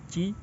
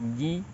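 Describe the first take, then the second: First: The first consonant is a voiceless ch sound. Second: The first consonant is a voiced j sound. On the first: The speaker calls it wrong. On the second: The speaker calls it right.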